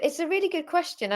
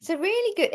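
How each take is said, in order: First: Said in the usual way. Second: Pitched high on really; high excited start. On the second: Real, not acted.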